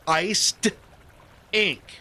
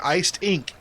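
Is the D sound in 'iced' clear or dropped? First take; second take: clear; dropped. First: The D is clearly sounded between the words. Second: Said quickly, the D is lost, like 'I stink'. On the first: "emphasis on the D there" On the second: "you're going to say it quickly"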